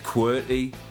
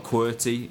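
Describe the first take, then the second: First: The T sound is dropped or softened. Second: The T sound is clearly pronounced.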